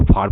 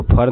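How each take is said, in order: First: फार with a long open "aa"; correct pronunciation. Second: फर with a short "uh" vowel; mispronunciation demo. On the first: Teacher models far for learners, फार with long "aa". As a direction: say फार as "faar". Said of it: "इसको फार पढ़ते हैं". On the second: Teacher rejects a misreading of far, फर with short vowel. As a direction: say फर like "fur". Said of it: "इसको फर नहीं पढ़ते हैं". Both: Shown as a demonstration.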